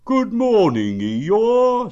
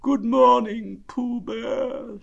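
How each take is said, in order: First: Loud, high hello; cheery greeting. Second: Gloomy, slow, high donkey voice; Eeyore. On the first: Acted. Pooh greeting the old grey donkey, hearty. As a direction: call it out high and loud to a friend. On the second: A narrator's reading. Donkey answering Pooh's greeting, gloomy. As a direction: drag the greeting out dolefully. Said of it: "said Eeyore gloomily".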